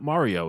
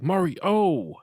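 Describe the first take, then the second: First: The name is said smoothly without a pause. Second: There is a pause between Mari and O. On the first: It is the usual way of saying the name. "It's not Mario" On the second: It imitates a character's odd way of saying the name. "he has a pause between Mari and O"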